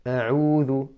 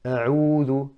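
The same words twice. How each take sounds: First: The first vowel is clipped and barely opened. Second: The first vowel is clipped and barely opened.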